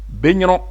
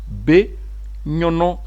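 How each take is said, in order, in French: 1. Il est prononcé rapidement, de façon naturelle. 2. Il est prononcé lentement et articulé avec soin. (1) "En prononçant rapidement comme les O B le font de façon standard" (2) "Je vais prononcer en articulant lentement"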